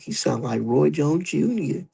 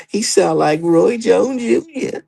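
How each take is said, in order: First: Slow, slightly higher mock gushing; mock fan gushing. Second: Much higher, very slow swooning fan voice; mock fan swooning. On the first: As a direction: start the fan parody lightly, drawn out. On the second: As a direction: push the parody, high and dreamy. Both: Mocking starstruck fans.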